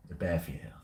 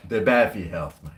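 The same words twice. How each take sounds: First: Soft, lowered mutter; hushed aside. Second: Said in the usual way. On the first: Acted. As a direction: say it again under your breath. Repeated, hushed.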